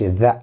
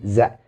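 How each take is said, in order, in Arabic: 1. بيبدأ بصوت 'th' المجهور. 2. بيبدأ بصوت 'z'. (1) "ما بقولش ذا مثل حرف الذال" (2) "انا بقول ذا مثل حرف الزين"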